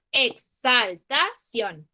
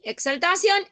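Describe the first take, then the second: First: "exaltación" slowly as ex - al - ta - ción; teacher dividing "exaltación" syllable by syllable, very slowly; split into syllables. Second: Said in the usual way. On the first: Shown as a demonstration. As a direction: break "exaltación" into separate, deliberate syllables. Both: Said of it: "Polisílabas cuando yo tiene más de cuatro".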